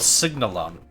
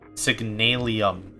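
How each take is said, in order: First: The word ends with a plain 'um' sound. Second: The word ends with an 'ee-um' sound. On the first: The speaker calls it right. "Oh, Signalum. I've just been mispronouncing it" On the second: The speaker calls it wrong. "Signalium is how I've been pronouncing because I U M sounds more aesthetically pleasing"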